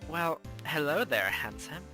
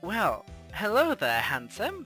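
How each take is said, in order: First: It is read in a sultry, sexy voice. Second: It is read in a plain, unstyled voice.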